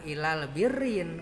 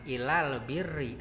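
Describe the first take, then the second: First: The last word ends with an added n sound. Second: The last word ends on a vowel, without n. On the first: The speaker calls it wrong. "ulah ditanwinan" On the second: The speaker calls it right. "aya alif lam"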